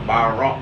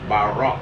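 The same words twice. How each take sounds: The two takes are said the same way.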